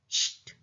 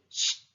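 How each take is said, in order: First: It starts with an sh sound before t. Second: It starts with an sh sound before t.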